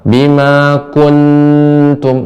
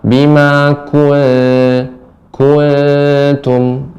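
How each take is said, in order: First: The n is fully closed with the tongue. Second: The n is softened without tongue contact. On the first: The speaker calls it wrong. "tidak bima kuntum, itu lengket" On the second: The speaker calls it right. "Yang benar bima kuntum"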